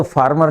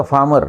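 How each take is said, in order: First: फार्मर with the r sounded after the a; फार्मर said with a clear r; wrong pronunciation. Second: फार्मर with no r after the a, faa-mer; फार्मर said with the r dropped; silent r. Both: Shown as a demonstration. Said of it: "ए के बाद आर silent है".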